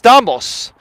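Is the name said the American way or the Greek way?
Greek. The name is said with Greek pronunciation. This is the original form of the name. The speaker calls it right. "So it's Stamos"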